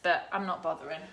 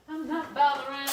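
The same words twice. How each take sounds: First: Said in the usual way. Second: Lightly sing-song, a bit higher; playful repeat. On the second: Real, not acted. Cook telling live viewers she skips browning, teasing. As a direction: toss the words off cheekily.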